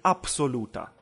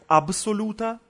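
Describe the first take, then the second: First: The consonant after the first vowel is p. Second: The consonant after the first vowel is b. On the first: "так и «абсолюта»" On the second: "можно читать как «абсолюта»"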